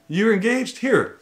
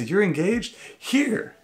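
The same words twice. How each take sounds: First: Higher, bouncier mock delight on the second take; mock excited stranger, repeated. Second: Higher, chirpy mock delight, rising question; mock excited stranger. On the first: Husband repeats the strangers' gushing offer to the engaged couple. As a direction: hand over the freebie again, still gushing. Mimics strangers giving free stuff. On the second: Husband mimics strangers gushing over the newly engaged couple. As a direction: play a gushing stranger handing out freebies.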